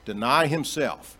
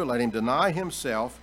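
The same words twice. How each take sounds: First: "Deny himself" pressed slow and louder, DENY leaned on; stress on deny. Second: Said in the usual way. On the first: Shown as a demonstration. Preacher driving the key phrase home to his congregation, slow and emphatic. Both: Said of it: "That's the key".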